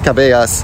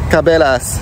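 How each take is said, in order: First: The name is pronounced the Spanish way. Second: The name is pronounced the English way. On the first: The speaker calls it wrong. "nicht Cabellas. Da ist nichts Spanisches dran" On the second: The speaker calls it right. "es ist nicht Spanisch. Es heißt Cabellas"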